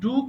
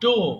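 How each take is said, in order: First: The vowel sounds like 'oo'. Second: The vowel sounds like 'oh'. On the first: The speaker calls it right. "So ডু করা" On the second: The speaker calls it wrong. "অনেকে ভুল করে ডো বলে"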